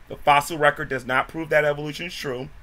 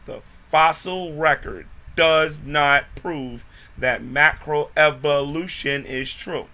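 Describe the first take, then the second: First: It is said at normal speed. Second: It is said very slowly.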